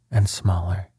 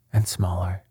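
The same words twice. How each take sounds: The two takes are said the same way.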